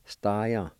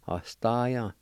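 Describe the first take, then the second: First: The word begins directly with an s sound. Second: The word begins with a short vowel sound.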